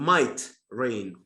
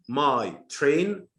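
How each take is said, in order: First: The t sound ends the first word. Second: The t sound starts the second word. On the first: Rain may fall. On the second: A train belonging to the speaker.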